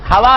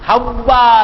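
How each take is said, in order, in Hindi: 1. बीच वाली w की आवाज़ छोटी और एक है। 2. बीच वाली w की आवाज़ खिंची हुई और दोहरी है।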